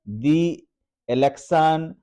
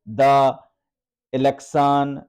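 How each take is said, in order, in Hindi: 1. 'The' को लंबी 'thee' आवाज़ में बोला जाता है। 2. 'The' को छोटी 'thuh' आवाज़ में बोला जाता है। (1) "ये आपका पढ़ना सही होगा" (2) "ये पढ़ना गलत होगा"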